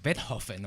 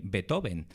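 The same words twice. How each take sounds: First: The name is pronounced the German way. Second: The name is pronounced the Spanish way. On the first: "he apparently said like Beethoven or something like that" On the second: "we say in Spain Beethoven"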